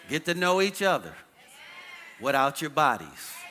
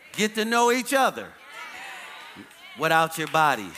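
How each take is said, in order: First: It is said with normal force. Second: It is said with stronger force.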